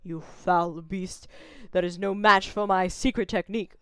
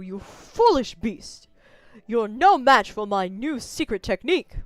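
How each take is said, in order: First: It is said in a deeper voice. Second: It is said in a higher voice.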